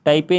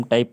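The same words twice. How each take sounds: First: टाइपे in two syllables, "tai-pay"; wrong reading, final e sounded. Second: टाइप as one syllable ending on p; correct silent-e reading. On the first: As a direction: add an "ay" after the p in टाइपे. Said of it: "टाइपे नहीं पढ़ेंगे". (टाइपे के आख़िर में "ए" बोलकर) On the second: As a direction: close टाइप on the p, no vowel after. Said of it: "इसे हम टाइप पढ़ेंगे". (टाइप में आख़िरी ई silent) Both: Shown as a demonstration.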